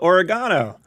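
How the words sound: It is pronounced the Australian way. "in Australia they call it oregano"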